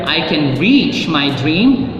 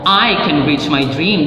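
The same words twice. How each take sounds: First: The stress falls on the word reach. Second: The stress falls on the word I. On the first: There is the strength to achieve the dream. "You have the strength to reach your dream" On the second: Only this person, nobody else, can do it. "That means it's only you, not anybody else"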